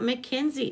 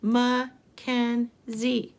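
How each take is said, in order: First: Said in the usual way. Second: Mackenzie very slowly in three beats; slow, separated Mackenzie for counting; syllable by syllable. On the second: Shown as a demonstration. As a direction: pause between each syllable of Mackenzie. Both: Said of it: "Let's count the syllables".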